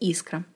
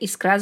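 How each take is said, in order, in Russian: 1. Ударение на первом слоге. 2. Ударение на последнем слоге. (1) "единственный вариант с ударением на «и»" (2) "Ударение на последний слог встречается в профессиональной речи у водителей"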